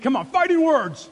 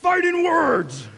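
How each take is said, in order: First: Higher and much louder, pushed hard; rally them to really mean it; preacher firing up the crowd, loud; shout like you mean it. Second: Loud, slow, drawn-out call; shouted call-and-response. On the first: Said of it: "say it like you mean it". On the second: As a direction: lead the crowd in a big shout. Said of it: "Everybody say". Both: Shown as a demonstration.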